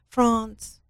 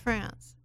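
First: France is said with a British accent. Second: France is said without a British accent.

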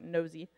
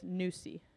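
First: The first vowel sounds like in 'nose'. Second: The first vowel sounds like in 'noose'. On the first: The speaker calls it wrong. "so it looks like nosy" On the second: The speaker calls it right. "but it's Nusi, like a noose"

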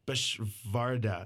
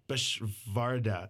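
First: The middle consonant is a V sound. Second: The same.

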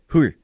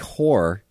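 First: The word has a different, idiosyncratic pronunciation. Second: The word has its ordinary everyday pronunciation. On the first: This imitates how the father said it. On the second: This is not how the father said it.

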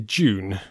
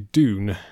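First: It is said the English way, like June. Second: It is said the American way, with a plain d.

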